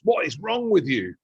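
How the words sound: The question sounds exasperated and judging. The listener is being blamed. The speaker calls it wrong. "we look at someone and go, Jesus"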